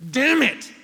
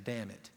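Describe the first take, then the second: First: Sudden loud high curse; angry outburst. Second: Lower, softer quiet echo; child's echo. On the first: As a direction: slam it out in frustration. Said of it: "threw it down and went". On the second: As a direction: mimic it back, quietly. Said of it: "daughter saying". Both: Retold or imitated.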